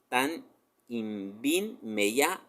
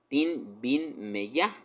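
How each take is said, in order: First: The first two words are said in full. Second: The first two words are run together, shortened. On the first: This is the standard written form. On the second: This is how people speak in the villages.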